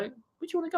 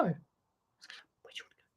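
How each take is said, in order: First: Much higher sing-song question to the parrot; high coaxing to bird. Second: Slow, soft whispered question to the parrot; whispered repeat. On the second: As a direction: drop to a slow hush for the bird. Coaxing the parrot to talk. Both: Acted.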